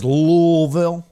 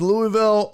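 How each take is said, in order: First: Louisville loud, with a long first syllable; drawn-out name. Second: Said in the usual way. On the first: Shown as a demonstration. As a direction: stretch the start of Louisville and push it out loud. Playful reading of ranking, then repeated.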